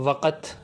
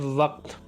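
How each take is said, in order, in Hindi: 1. यह शब्द दो अक्षरों में बँटा हुआ है। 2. यह शब्द एक अक्षर में बोला जाता है। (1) "जो कि गलत है" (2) "ठीक तलफ़्फ़ुज़ है वक़्त"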